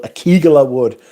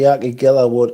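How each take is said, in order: First: Akigilla said punchy and loud, stressed on the KI; Mickers' pronunciation. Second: Said in the usual way. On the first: Retold or imitated. Reading a chat message about a scary perfume wood, Akigilla pronounced as Mickers would. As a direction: hit the KI in Akigilla, then let the ending go short. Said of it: "as, uh, my Mickers would have called it".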